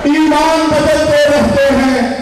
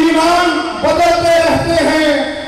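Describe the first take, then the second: No difference in how they are said.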